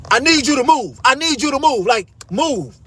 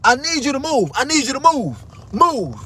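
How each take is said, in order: First: Higher, pushy repeat of the order; mimicking bossy demand. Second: Higher, insistent repeat; mimicking bossy demand. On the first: Retelling the guard ordering him to move, pushy and higher. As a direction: imitate her insisting he move. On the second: Retelling the guard ordering him, insistent mimicry. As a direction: copy her pushy order. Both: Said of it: "This, this is her exact words".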